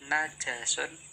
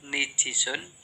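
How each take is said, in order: First: The n takes a and the j takes a. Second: The n takes i and the j takes i. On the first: "kelima najasun" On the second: "kedua nijisun"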